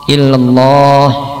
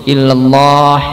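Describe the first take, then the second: The two takes are said the same way.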